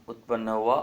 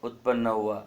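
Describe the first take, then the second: The two takes are said the same way.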